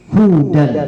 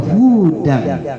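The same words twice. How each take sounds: First: The first vowel is short. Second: The first vowel is lengthened. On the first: It means guidance. The speaker calls it right. "kalau dibaca hudan lil muttaqin itu petunjuk bagi orang-orang yang bertakwa" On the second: The speaker calls it wrong. "menambah mat, bacaannya hudan. Itu orang-orang Yahudi"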